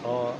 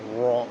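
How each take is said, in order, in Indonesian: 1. Bunyi r-nya tipis dan biasa saja. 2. Bunyi r-nya ditebalkan di dalam tenggorokan. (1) "Biasanya kan kita kayak cuma ro gitu" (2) "Jadi lebih tebal"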